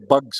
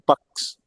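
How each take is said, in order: First: The word ends with a voiced 'gz' sound. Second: The word ends with a voiceless 'ks' sound. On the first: The speaker calls it wrong. "We don't say bugs" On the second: The speaker calls it right. "we say bucks"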